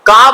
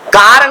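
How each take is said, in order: First: The word ends without an r sound. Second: The word ends with an r sound. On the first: "का बोल रही है" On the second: "कार नहीं बोल रही है"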